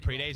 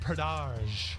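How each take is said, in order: First: The name sounds like 'pre-days'. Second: The name sounds like 'pra-dahj'. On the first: The speaker calls it wrong. "Am I been saying it wrong with pre-days this whole time?" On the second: The speaker calls it right. "so Pradaj is the way you say it"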